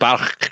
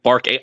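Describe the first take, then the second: First: It is said with a Central Asian-style sound. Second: It is said with a plain American sound. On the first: "from a uh, Afghanistan or Kazakhstan, you know, like a Bach" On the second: "I think Bark H um, suits our uh, American um, linguistic styles"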